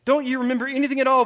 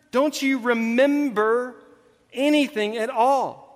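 First: Brisk, higher-pitched acted reproach; quick exasperation. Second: Drawn out word by word, pitched up; slow exasperation. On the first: Jesus reminding disciples what just happened, quick exasperation. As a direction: rattle the question off impatiently. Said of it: "goes back to what's just happened". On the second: Retold or imitated. Jesus prodding forgetful disciples, slow exasperation. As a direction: labour every word in acted frustration. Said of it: "wanting to pull his hair out".

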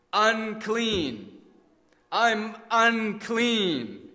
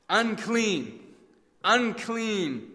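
First: Slow, anguished cry of unclean, pitched higher; choked out. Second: Pained, higher cry of unclean; words stuck in the throat; nearly choking. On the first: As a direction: force the words out in anguish. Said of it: "he choked out the dreaded words". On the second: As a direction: leper warning the crowd, half-choked. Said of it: "The terrible words nearly choking him". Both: Acted.

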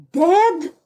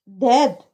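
First: A higher, stunned question; shocked cry. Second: A short, curt falling word; laconic. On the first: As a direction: cry it out in disbelief. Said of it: "I cried loud enough for her to hear". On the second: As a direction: drop it bluntly without feeling. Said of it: "she replied laconically". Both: A narrator's reading.

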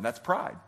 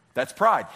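First: Said in the usual way. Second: Pride punched louder with a falling tune; emphatic repeat. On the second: Shown as a demonstration. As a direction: hammer the word pride home. Preacher repeats the point.

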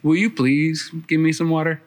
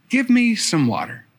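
First: A courteous ask with weight on you; polite request. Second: A curt request with no please, pitched higher; just ask, don't bother being polite; blunt demand. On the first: Shown as a demonstration. The polite way Jesus could have asked, courteous. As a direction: ask nicely, the way grandmother taught. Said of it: "didn't say". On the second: Retold or imitated. Jesus asking the woman at the well, blunt and curt. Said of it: "kind of rude that Jesus didn't say".

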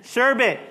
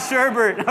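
First: "Sherbet" said as "SHER-bit"; no second r in "Sherbet"; correct sherbet. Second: "sherbet" said as "SHER-bert"; wrong sherbet. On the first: Pastor demonstrating the right way, no-r sherbet. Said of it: "there's no R after the E". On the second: Pastor showing the mistake, sherbert pronunciation. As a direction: add a second r to "sherbet". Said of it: "It's not sherbet". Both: Shown as a demonstration.

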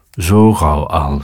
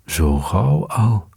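First: Slow echo. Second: Slow teasing. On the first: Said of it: "zei de kat". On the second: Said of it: "zei de vos". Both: A narrator's reading.

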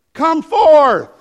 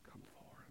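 First: High booming command; Jesus shouting. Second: Barely audible whisper; whispered command. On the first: Preacher as Jesus orders Lazarus out, shouting. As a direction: shout it into the tomb. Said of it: "the Bible says in a loud voice". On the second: Preacher as Jesus calls Lazarus out, in a whisper. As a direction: let the command vanish to a breath. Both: Acted.

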